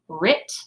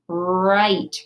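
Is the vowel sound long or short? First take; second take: short; long. First: The vowel is short, as in sit. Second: The vowel is long, as in sight. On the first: The speaker calls it wrong. "That's not a word" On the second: The speaker calls it right. "lets the vowel say its own name"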